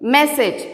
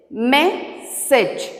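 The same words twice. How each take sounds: First: Said in the usual way. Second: "Message" split into mes, sage; syllable by syllable. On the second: Shown as a demonstration. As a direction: clear pause between "mes" and "sage" in "Message". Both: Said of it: "Now I am splitting the words".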